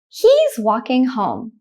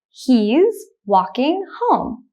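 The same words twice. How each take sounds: First: The sentence is spoken at normal speed. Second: The sentence is spoken slowly. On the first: "The second time I will say it at a normal speed, like a native speaker" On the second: "The first time I will say it slowly"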